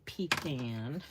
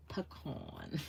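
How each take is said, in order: First: "pecan" said as PEE-kan, ee then short a; the rejected PEE-kan way of saying "pecan"; "pecan" as pee-KAN, the version she warns against; wrong pecan. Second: "pecan" said puh-KAHN, soft first syllable, long ah; "pecan" with a broad KAHN ending; her pecan. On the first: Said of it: "Do not say pecan". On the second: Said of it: "I say pecan". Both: Shown as a demonstration.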